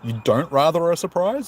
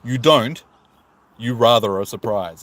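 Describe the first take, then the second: First: It is read straight through with no break. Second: There is a break after "don't".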